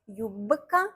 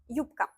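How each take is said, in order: First: The consonant before k is voiced, like b. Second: The consonant before k is voiceless, like p. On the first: The speaker calls it wrong. "We write юбка, юбка, but it's difficult to pronounce it like this" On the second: The speaker calls it right. "So we pronounce юбка"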